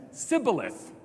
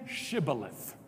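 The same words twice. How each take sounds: First: Sibboleth begun with a hissing S; mispronounced Sibboleth. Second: Shibboleth begun with a hushing SH; correct Shibboleth. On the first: Acted. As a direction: say Sibboleth with s in place of sh. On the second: Shown as a demonstration. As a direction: say Shibboleth slowly with a clear sh sound. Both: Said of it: "he could not pronounce it right".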